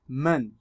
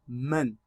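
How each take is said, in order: First: The n resonates freely through the open nose. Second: The n resonates freely through the open nose.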